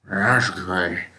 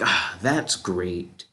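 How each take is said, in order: First: It is said in a slow zombie drawl. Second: It is said with sarcasm.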